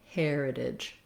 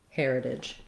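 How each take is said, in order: Both takes have the same delivery.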